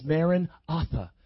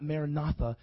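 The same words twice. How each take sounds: First: Maranatha split as Maran, atha; corrected word break. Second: Maranatha run together as Mara-natha; wrong word break. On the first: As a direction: say "Maranatha" with atha set apart. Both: Shown as a demonstration. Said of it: "It's actually not Maranatha".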